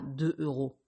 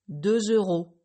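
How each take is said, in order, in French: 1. Aucun son Z ne relie le nombre au nom. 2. Un son Z relie le nombre au nom. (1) "et pas" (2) "vous entendrez le son Z"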